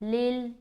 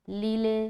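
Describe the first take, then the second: First: The final l is held without a bounce. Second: The final l is released with a bounce. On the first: The speaker calls it right. "यहाँ पर हमें पढ़ना है लिल" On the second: The speaker calls it wrong. "अगर कोई यहाँ पढ़ता है लील ... तो गलत होगा"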